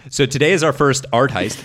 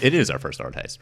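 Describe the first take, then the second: First: Excited announcement. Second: Said in the usual way. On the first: Real, not acted.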